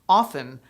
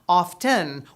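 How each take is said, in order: First: The T sound is not pronounced. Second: The T sound is clearly pronounced. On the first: "with the T silent" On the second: "with the audible T"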